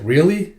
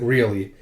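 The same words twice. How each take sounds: First: "Really?" higher, with rising tune; questioning. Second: "Really?" low, with falling tune; confirming. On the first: One character doubting another, "Really?" rising in question. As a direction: ask "Really?" with a lift at the end. First of two contrasting takes. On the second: One character confirming to another, "Really?" falling. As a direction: answer "Really?" as a settled statement. Answer to the same word. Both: Acted.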